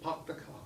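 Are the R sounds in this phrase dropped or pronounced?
dropped. The R sounds are dropped. This is how the British say it. "They say park the car"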